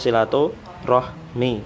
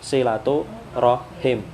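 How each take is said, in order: First: The last word ends with the sounds 'mi'. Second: The last word ends with the sounds 'him'. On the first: The speaker calls it wrong. "bukan silatu rahmi" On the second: The speaker calls it right. "yang betul itu silatu rahim"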